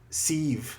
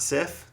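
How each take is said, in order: First: The name ends with a v sound. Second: The name ends with an f sound. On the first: This is the audiobook's pronunciation. "They pronounce it like a V" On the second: This is the familiar pronunciation from the films. "not Sif"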